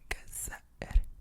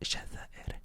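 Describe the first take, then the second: First: The word begins with a hard g sound. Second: The word begins with a j sound. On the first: This is how people in Egypt say it. "in Egypt, they don't say Jazair, they say Gazair" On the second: This is the standard form of the country name. "they don't say Jazair"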